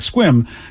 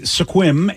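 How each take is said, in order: First: The word is said quickly as one syllable. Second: The word is said slowly as two syllables. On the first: "we have just made it go fast like squim" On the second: "or is it sequim"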